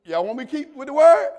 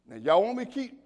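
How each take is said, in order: First: Louder calling out to the church. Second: Said in the usual way. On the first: Real, not acted. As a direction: call out louder, rising at the end.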